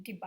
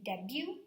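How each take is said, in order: First: "debut" with the last t sounded, "de-but"; pronounced final T. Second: "debut" ending in a vowel, "deb-yoo"; silent final T. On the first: Teacher shows what we are not saying, "debut" with an audible t. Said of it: "We're not saying debut". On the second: Teacher shows how French-derived words are said, "debut" with silent t. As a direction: leave the t off the end of "debut". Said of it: "S and T are silent". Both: Shown as a demonstration.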